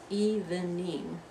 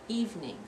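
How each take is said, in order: First: The word is said with three syllables. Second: The word is said with two syllables. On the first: The speaker calls it wrong. "not evening, three syllables" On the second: The speaker calls it right. "only two syllables"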